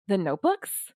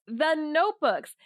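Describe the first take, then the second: First: "The notebooks?" with a rising question tune at the end; mirroring question. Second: Said in the usual way. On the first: Retold or imitated. Son mirrors his father, "The notebooks?" rising as a question. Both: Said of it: "to do mirroring".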